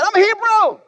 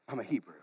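First: High, haughty boast; proud Jonah. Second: Quiet quote. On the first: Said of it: "But he said". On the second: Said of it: "the first thing that he says". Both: Acted.

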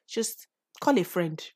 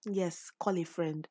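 First: Said in the usual way. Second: Softer and slower, gently repeated; soft, slow reassurance. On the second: Real, not acted. Podcaster gently repeating her advice to a struggling listener, soft and slow. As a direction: call a friend, said slowly and softly like a quiet reminder.

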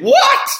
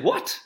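First: A sudden, much higher and louder squeak of what; shocked what. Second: A quiet, stunned what; muted disbelief. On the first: The face's real reaction to the eighty-year-old client, a shocked yelp. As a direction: let the shock burst out. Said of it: "my face probably said". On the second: Surf coach meets his elderly student, quietly stunned. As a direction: caught off guard, keep it under your breath. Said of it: "I said". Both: Retold or imitated.

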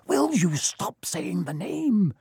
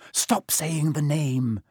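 First: Slow, scared hiss. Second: Slow, scared whispered plea; whispered fear, urgent and slow; terrified whisper. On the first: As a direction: hiss it in fear. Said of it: "Ron hissed". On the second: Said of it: "in a terrified whisper". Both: Acted.

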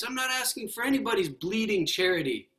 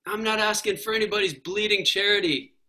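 First: High, stubborn refusal of charity; indignant ghost. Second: Lightly voiced indignant ghost; quoting the ghost. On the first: Acted. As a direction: spit out bleeding charity. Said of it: "the ghost". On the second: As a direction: retell his stubborn line. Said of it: "I love that when he's like".

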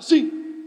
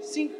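First: Loud, forced cross SIM; angry yes. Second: SIM said softer, without anger; agreeable yes. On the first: Preacher showing yes cannot sound angry, mock-angry and loud. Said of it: "você não consegue falar "Sim", bravo". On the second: Preacher showing how yes naturally sounds, softer and agreeable. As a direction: give an easy, friendly SIM. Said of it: "Você fala, "Sim". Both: Shown as a demonstration.

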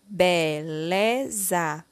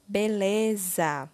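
First: BELEZA drawn out slowly as be, le, za; syllable by syllable. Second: Said in the usual way. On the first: Shown as a demonstration. Teacher completing the word with syllable lé, slowly syllable by syllable. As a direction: sound out BELEZA one syllable at a time. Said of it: "Iremos utilizar a sílaba lé". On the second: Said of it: "formando a palavra".

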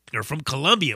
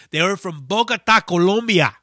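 First: Said in the usual way. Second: Bogota, Colombia said with Spanish vowels, Colombia as ko-LOM-bia; Spanish pronunciation. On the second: Shown as a demonstration. Telling a friend where the band is from, in Spanish sounds. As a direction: say Colombia with the Spanish o sounds, not English kuh-LUM-bia.

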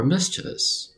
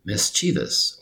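First: MISCHIEVOUS said as MIS-chuh-vus; careful "mischievous", middle syllable reduced to "chuh"; careful alternative pronunciation. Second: MISCHIEVOUS said slowly as MIS-chee-vus; careful "mischievous", middle syllable like "chee"; slow careful pronunciation. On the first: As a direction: say "mischievous" with a short, weak middle vowel. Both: Shown as a demonstration. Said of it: "Let's pronounce that slowly".

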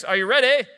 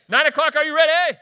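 First: Loud, raised call to the crowd; rally the congregation; high, punchy hype question; rousing call. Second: Full high shout to the crowd; hollered hype call, at full volume; rousing shout. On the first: Preacher rousing congregation before reading. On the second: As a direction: fire up a sleepy congregation. Calls again to nine o'clock congregation. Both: Real, not acted.

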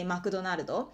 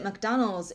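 First: McDonaldo with Japanese vowels, Ma-ku-do-na-ru-do; katakana-style McDonaldo; マクドナルドと日本語で. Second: McDonald's said the English way; crisp English McDonald's; 英語の発音で. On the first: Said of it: "in Japanese you would say". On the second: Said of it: "you would pronounce it". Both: Shown as a demonstration.

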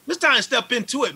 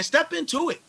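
First: Fired-up push, higher and louder; rally the listener into action; amped. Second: Much higher, urgent repeat; amped. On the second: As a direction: push it harder the second time. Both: Real, not acted. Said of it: "I know I'm amped about this stuff".

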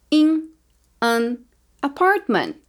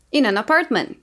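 First: In and an apartment split by a pause; words said separately. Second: In an apartment linked as inan apartment; linked naturally. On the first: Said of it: "Eu vou falar as palavras separadas". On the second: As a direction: let the n of In slide into an. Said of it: "Depois eu vou falar mais naturalmente". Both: Shown as a demonstration.

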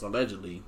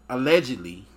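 First: Low, soft mock newsy allegedly; Madison voice. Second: Said in the usual way. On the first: Shown as a demonstration. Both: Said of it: "M I T S Madison voice".

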